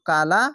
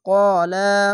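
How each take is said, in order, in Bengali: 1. প্রথম স্বরধ্বনিটি হালকা ও পাতলা শোনায়। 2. প্রথম স্বরধ্বনিটি ভারী ও মোটা শোনায়। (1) "কালা উচ্চারণ হবে না কেন মোটা অক্ষরে আকার উচ্চারণ হবে না" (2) "তার জন্য ক্বালা"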